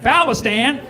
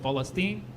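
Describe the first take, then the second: First: It is said in an exaggerated American accent. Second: It is said with an Arabic pronunciation.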